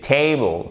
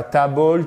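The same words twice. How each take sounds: First: "table" as "TAY-bol", with a diphthong; correct English table. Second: "table" as "ta-bol", with an open a; wrong French-style table. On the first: Teacher corrects learners' vowel, diphthong pronunciation. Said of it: "on a une diphtongue". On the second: Teacher shows learners the mistake, French-style mispronunciation. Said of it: "c'est table". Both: Shown as a demonstration.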